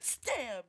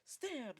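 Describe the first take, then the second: First: The word is shouted with exaggerated dramatic energy. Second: The word is said plainly with little energy. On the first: "I'm just kidding" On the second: "he just says"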